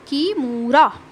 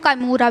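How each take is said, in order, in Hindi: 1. नाम 'ki' की आवाज़ से शुरू होता है। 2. नाम 'ka' की आवाज़ से शुरू होता है।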